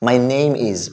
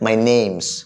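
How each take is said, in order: First: Name and is are said as separate words. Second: Name and is are merged into one word.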